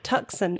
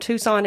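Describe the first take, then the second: First: The C in the middle is pronounced. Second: The C in the middle is silent. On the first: The speaker calls it wrong. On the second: The speaker calls it right.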